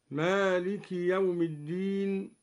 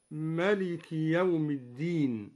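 First: مالك said with a long alef, maaliki; standard Maliki reading. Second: ملك with the alef dropped, short melik; Duri reading. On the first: Teacher reciting مالك with a long alef for students. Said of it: "قرأ الدوري بحذف الألف". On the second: Teacher showing students the short ملك of al-Duri. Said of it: "قرأ الدوري بحذف الألف، هكذا". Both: Shown as a demonstration.

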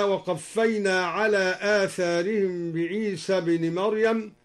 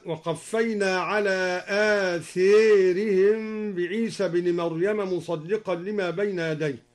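First: Said in the usual way. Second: آثارهم said āthērihim, the alif leaning to e; إمالة آثارهم; athārihim with imala. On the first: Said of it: "أمال آثارهم". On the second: Shown as a demonstration. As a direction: bend the alif of آثارهم toward e. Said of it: "أمال آثارهم، هكذا".

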